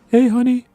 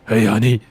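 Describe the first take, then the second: First: It is said in a higher voice. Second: It is said in a deeper voice.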